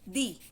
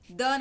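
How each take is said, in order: First: The word ends in a long ee vowel. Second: The word ends in a short uh vowel. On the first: The next word starts with a vowel sound. The speaker calls it right. "दी बोलेंगे" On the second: The form used before a consonant sound. The speaker calls it wrong. "द नहीं बोलेंगे"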